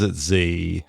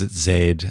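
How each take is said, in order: First: The letter is said the American way, 'zee'. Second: The letter is said the Australian way, 'zed'.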